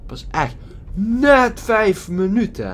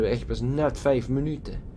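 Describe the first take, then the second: First: Higher, slow, with the weight on "net"; stress on net. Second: Said in the usual way. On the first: Shown as a demonstration. Streamer griping at the game, slow and high, leaning hard on "net". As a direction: drag out "Pas echt net vijf minuten" and land hard on "net".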